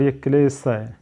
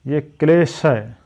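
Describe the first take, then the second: First: "क्लेश" ending in a thin s; contrasting sibilant demo. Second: "क्लेश" ending in a hushed sh; contrasting sibilant demo. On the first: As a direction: close "क्लेश" on s in place of sh. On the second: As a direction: close "क्लेश" on a clear sh sound. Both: Shown as a demonstration. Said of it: "ये इसका difference है".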